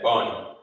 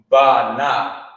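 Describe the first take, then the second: First: It is said as one joined syllable. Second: It is said as two separate syllables. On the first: The speaker calls it right. "you have to say it like that" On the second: The speaker calls it wrong. "you wouldn't say Ba Na"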